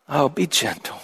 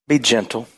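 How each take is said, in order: First: Much softer and tender; gentle. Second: Said in the usual way. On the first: Shown as a demonstration. Pastor urging the congregation to be gentle, softly tender. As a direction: say it as gently as you ask.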